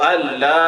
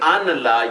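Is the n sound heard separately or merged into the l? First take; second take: merged; separate. First: The n merges into a doubled l sound. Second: The n is pronounced separately before the l. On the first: The speaker calls it right. "नून साइलेंट है" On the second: The speaker calls it wrong. "ये नहीं पढ़ना"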